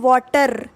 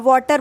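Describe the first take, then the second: First: The r sound is said strongly. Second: The r sound is said lightly. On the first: "south Indian water आर sound वो कुछ ज़्यादा ही उस पर जोर डालते हैं" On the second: "north Indian आर sound को कम बोलते हैं"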